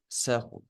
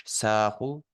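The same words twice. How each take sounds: First: ساخو with the first vowel cut to a brief neutral "sə"; sukun sound. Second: ساخو with the first vowel held long, as a full "saa"; vowelled syllable. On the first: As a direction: keep the first syllable of ساخو short, barely vowelled. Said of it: "بولنستي أصوت سيو سوك". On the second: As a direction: open and lengthen the "a" in ساخو. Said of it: "آ عدو أهتج". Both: Shown as a demonstration.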